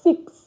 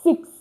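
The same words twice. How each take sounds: No difference in how they are said.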